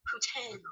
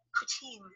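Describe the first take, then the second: First: "Poutine" said softly as poo-TEN; soft "Poutine", French-like second vowel; French-style pronunciation. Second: Put-on "Poutine" said softly as poo-TEEN; soft "Poutine", ending in "teen"; poo-TEEN pronunciation. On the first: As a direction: say "Poutine" with an "en" ending, quietly. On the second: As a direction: say "Poutine" with a long "ee", quietly. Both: Shown as a demonstration. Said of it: "it sounds like a French word".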